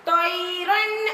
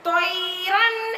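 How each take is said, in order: No difference in how they are said.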